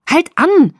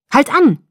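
First: High, full-out yell; louder scream. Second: High, loud burst; blurted out. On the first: Bella to Jacob as he races down the street, screamed. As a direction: scream it at the driver, high and loud. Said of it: "schrie ich wieder, lauter diesmal". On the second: Bella to Jacob as she spots the parked car, blurted shout. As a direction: blurt it out sharply, raised pitch. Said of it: "stieß ich hervor". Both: A narrator's reading.

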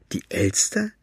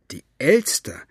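First: High, shocked disbelieving question; can't believe what she heard; incredulous. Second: Half to herself, puzzling it out; wondering. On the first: Maggie repeats in disbelief. (ungläubig, hoch und fassungslos) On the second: Second, lower repetition. (nachdenklich wiederholt) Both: Acted.

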